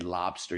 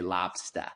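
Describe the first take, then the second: First: It is said with a general American accent. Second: It is said with a Boston accent. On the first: The speaker calls it wrong. "you would not say lobster" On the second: The speaker calls it right. "You would say lobster"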